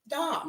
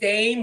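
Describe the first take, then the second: First: The vowel is an open ah sound. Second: The vowel is a long ay sound. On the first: "like Ron Dom" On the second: "with a hard A"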